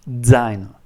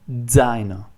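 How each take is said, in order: The two takes are said the same way.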